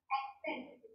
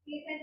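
First: ਐਕਸੈਂਟ said with a clear k before the s, "ek-sent"; correct pronunciation. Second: ਐਕਸੈਂਟ said as ਐਸੈਂਟ, dropping the k sound; wrong pronunciation. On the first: Teacher giving the class the right way, ਐਕਸੈਂਟ with a clear k. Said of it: "ਇਹ ਹੈਗਾ". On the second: Teacher showing students the mistaken way, ਐਕਸੈਂਟ as "esent" without the k. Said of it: "ਨਹੀਂ ਬੋਲਣਾ". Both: Shown as a demonstration.

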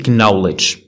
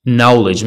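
First: "knowledge" with a hard K before the N; K sounded. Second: "knowledge" starting straight on N; silent K. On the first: Teacher warns learners of the mistake, K sounded in "knowledge". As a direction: say "knowledge" as k-nowledge. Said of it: "ماشي knowledge". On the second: Teacher models the word for learners, silent K in "knowledge". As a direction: say "knowledge" as nowledge, no K. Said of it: "ما كتنطقش". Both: Shown as a demonstration.

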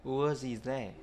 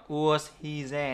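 First: "was he" linked, "he there" run as "zi-zɛ"; teacher shows the right linked reading, quietly. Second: Slow, "was" ending on an S sound, unlinked; teacher shows the wrong unlinked reading. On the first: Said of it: "nữa, mà". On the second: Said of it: "Không phải là". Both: Shown as a demonstration.

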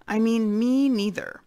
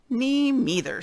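First: High, louder little mouse insisting; tiny mouse voice again. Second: High, small mouse voice piping up; tiny little voice. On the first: Mouse repeats itself so the boars hear, high and louder. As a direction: repeat it, small but more insistent. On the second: Mouse chimes in agreeing with the boars, tiny high voice. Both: Acted. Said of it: "said a tiny little voice".

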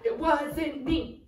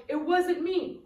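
First: Slow, stretched "it wasn't me"; drawn-out denial. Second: Quick, high "it wasn't me"; playful denial. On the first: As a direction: drag out each word of "it wasn't me". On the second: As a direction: toss off an innocent "it wasn't me". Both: Pretend. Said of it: "and you're gonna go".

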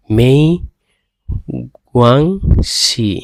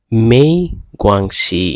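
First: মেই গুয়াংশি stretched very slowly, falling at the end; very slow model of মেই গুয়াংশি; slow Chinese demo. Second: মেই গুয়াংশি modelled as Chinese méi guānxi; teacher model of মেই গুয়াংশি; Chinese demo. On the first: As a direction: drag out মেই গুয়াংশি for learners. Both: Shown as a demonstration. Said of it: "এখানে তিনটা word".

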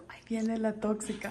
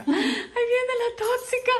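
First: Whispered tease, low and soft; whispered playful gossip. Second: Higher, voiced playful tease; playful announcement at normal volume; playful teasing. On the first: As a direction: hush it like a secret about the bird. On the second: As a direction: call it out teasingly. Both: Real, not acted. Teasing pet, repeated twice.

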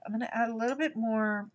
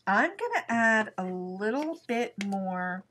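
First: Fast, brisk restatement; quick repeat. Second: Slow, unhurried, words stretched; slow and drawn out. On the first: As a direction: rattle it off quickly. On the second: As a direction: take your time on each word. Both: Real, not acted.

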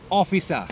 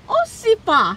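First: Officer said clearly with a falling end, as the model to copy; careful demo. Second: Officer said as Osipa, with an s and a p; wrong pronunciation. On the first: Officer drills the driver on his title, carefully. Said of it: "one more time". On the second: Driver keeps calling the policeman Osipa, cheerfully. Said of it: "No, that's it". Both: Acted.

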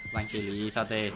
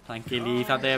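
First: Slow, soft calming voice; calm the animal down gently; slow soothing. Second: Said in the usual way. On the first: Real, not acted. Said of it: "Tranquilízate, bro". (voz lenta y tranquilizadora)

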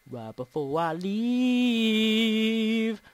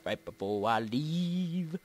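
First: Very slow, LEAVE held extremely long; playful long-held note. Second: Low, slow, stretched LEAVE; playful drawl. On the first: Player repeating the phrase before going, playful long-held note. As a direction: hold "leave" out like a sustained note. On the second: Player dawdling before ending the video, playful drawl. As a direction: start low and drag out "leave". Playing with a repeated phrase. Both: Pretend.

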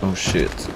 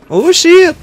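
First: Low, soft muttered curse; muttered oh shit. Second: Sudden high startled cry; startled yelp. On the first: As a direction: mutter it under your breath. Mild dismay in a firefight. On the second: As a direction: jolt up in sudden alarm. Sudden danger in a firefight. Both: Real, not acted.

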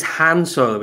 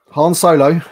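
First: "Han" said with a flat a, like "hand"; British pronunciation. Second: "Han" said the American way, "Hahn" with an open ah; American pronunciation. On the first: Shown as a demonstration. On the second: Real, not acted. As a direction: say "Han" as in the film, broad "ah". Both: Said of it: "Why are you saying it like that?".

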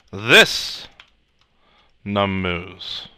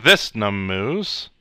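First: This lifted and set apart before num moos; stress on this. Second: Said in the usual way. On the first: Shown as a demonstration. Teacher spelling out the explicit this, stress on this. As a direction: pause after this, then num moos. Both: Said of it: "I have to be clearer".

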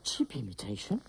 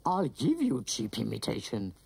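First: Very deep, rising "imitation?"; deep villain voice lifting on "imitation"; offended question. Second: Very deep villain threat; low monster voice, stressing "give"; menacing retort. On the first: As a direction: echo "imitation" as an affronted question. Villain offended by aunt's insult. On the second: Acted. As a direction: threaten in a dark, falling tone. Villain threatens after the insult.

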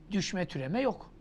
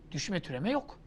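No difference in how they are said.

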